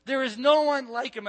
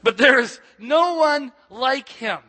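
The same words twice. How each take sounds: First: Said in the usual way. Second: Louder, slower, stress on "no"; second try, slow and ringing; bigger second take. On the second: Shown as a demonstration. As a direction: preach "no one like him" out with full force, leaning on "no". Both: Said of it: "It does get better second time around".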